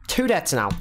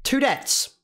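First: Said in the usual way. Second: Shocked yelp. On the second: Real, not acted. Squeaky outburst at deaths.

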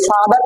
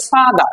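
First: Said in the usual way. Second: "ফাদা" ending on an open "daa", no R; British silent R. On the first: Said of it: "আমরা বলি". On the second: Shown as a demonstration. Teacher showing students British father, "ফাদা" with no final R. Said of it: "তারা বলে".

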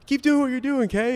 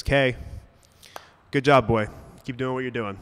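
First: Very high, loud mimicry of an old man; mock it back as a jeering crowd; squeaky-high taunting imitation. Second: Mild sideline call through cupped hands; half-voiced shout of encouragement; imitated calling out. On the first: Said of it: "they start mocking him". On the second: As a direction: call out lightly, as Grandpa encouraging from the stands. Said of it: "puts his hands over his mouth, cups".

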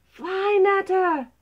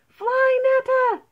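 First: Loud, high urgent cry; urgent snake's warning. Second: Very high, loud squeal of alarm; mouse squeak. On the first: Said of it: "hissed the snake". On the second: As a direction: squeak it urgently like frightened mice. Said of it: "squeaked the mice". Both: Acted.

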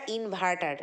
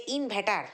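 First: Said in the usual way. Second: ইনভার্টার said the way she says it, mispronounced; her mispronunciation. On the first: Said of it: "যেটাকে বলি আমরা ইনভার্টার". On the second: Retold or imitated. Mocking the influencer's ইনভার্টার, said her wrong way. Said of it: "ও বলে যে ইনভার্টার".

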